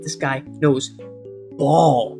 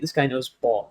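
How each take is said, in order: First: It is said with strong, forceful emphasis. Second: It is said lightly, without strong emphasis. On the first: The person has elite knowledge. "You put the emphasis on that" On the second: The person has good but not elite knowledge. "You got that lowercase b on it"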